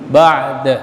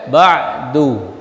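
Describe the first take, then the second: First: The word ends on a bare consonant. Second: The word ends with a final u vowel. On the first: "Kalau diwaqaf dia mah mati ba'd" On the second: "tapi boleh ba'du, putus"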